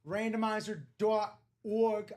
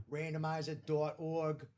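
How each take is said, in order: First: Accidental Boston accent, a bit louder. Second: Said in the usual way. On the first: Real, not acted. Host reading out the randomizer site, Boston accent. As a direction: slip into Boston on "dot org". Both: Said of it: "I don't know why I went Boston accent".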